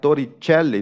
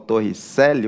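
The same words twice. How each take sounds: First: The name is said with an Italian pronunciation. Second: The name is said with a Portuguese pronunciation. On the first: The speaker calls it right. "tem que pronunciar como italiano" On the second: The speaker calls it wrong. "o pessoal me corrige"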